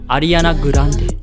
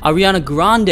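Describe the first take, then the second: First: The name is said with Japanese pronunciation. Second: The name is said with English pronunciation. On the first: "is gonna be" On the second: "celebrity names are gonna be a little bit different"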